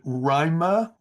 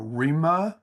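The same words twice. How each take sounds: First: RIMA said as "RYE-ma"; first pronunciation. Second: RIMA said as "REE-ma"; second pronunciation. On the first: Teacher checking a student's name, RIMA pronounced "RYE-ma". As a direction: say RIMA with a long I, like "rhyme". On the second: Teacher checking a student's name, RIMA pronounced "REE-ma". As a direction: say RIMA with a long E. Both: Shown as a demonstration. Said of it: "Is it Rima or Rima?".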